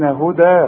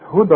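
First: The final vowel is long, ending the phrase. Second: The final vowel is short, running into the next word. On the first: The reciter stops on this word. "وتثبت الياء إذا وقفت عليها" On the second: The word is joined to the following word. "فبنلغي الياء دي"

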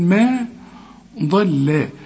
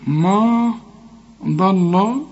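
First: The m and l sound light and thin. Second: The m and l sound heavy and dark. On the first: The speaker calls it right. "الضاد هي المفخمة والميم واللام هنرققهم" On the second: The speaker calls it wrong. "ما تنفعش"

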